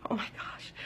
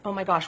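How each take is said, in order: First: Breathy panicked whisper of Oh my gosh; anxious whisper. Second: Said in the usual way. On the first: Retold or imitated. Panicked inner thought, whispered.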